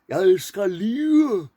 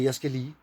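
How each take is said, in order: First: Lige is said in full, both syllables clear. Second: Lige is shortened, its ending reduced. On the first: This is how it was said in the past. "They did in the old days. They said lige" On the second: This is how it is said today. "Now we say"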